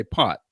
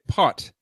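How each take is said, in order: First: "pot" with the final T swallowed, not released; natural American T. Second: "pot" with the T released as its own sound; separate final T. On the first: American showing his unconscious everyday way, "pot" with swallowed T. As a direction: stop "pot" short on an unreleased T. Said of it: "completely unconscious and natural about it". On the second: American explaining accents to an Irishman, "pot" with separated T. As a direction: finish "pot" on a distinct, separate T. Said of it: "the T at the end is a separate syllable". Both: Shown as a demonstration.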